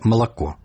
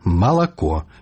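First: The unstressed vowels are reduced and swallowed. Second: The unstressed vowels are pronounced fully and clearly. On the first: This is the Russian way to say it. The speaker calls it wrong. "не ... як па-расейску" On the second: This is the native Belarusian way to say it. The speaker calls it right. "Кажам выразна"

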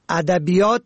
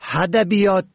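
First: The word begins with a plain vowel. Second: The word begins with an h sound. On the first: The speaker calls it right. "که با الف شروع می شود" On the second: The speaker calls it wrong. "با ه ادبیات تلفظ می کنند"

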